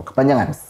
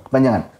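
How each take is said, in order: Both takes have the same delivery.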